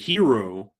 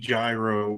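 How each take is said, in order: First: Said as a blend between the two pronunciations. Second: Said the way English spelling would suggest. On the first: It is a compromise between the two options. "meet in the middle" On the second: It follows ordinary English reading habits. "phonetically, based on what I know about the English language, it would be gyro"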